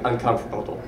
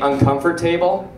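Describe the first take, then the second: First: The ending is reduced, not a full 'table'. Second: The ending is said as a full 'table'.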